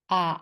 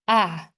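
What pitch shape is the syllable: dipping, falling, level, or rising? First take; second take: dipping; falling. First: The pitch dips low then rises. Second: The pitch falls sharply from high to low. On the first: "And how about the third one?" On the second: "And how about the last one?"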